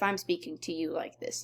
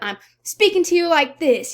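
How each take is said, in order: First: The voice is flat and monotone. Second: The voice is loud and lively. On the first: The speaker may be unhappy. "you know that I am speaking monotoned" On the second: The speaker is excited. "I'm excited, I'm loud"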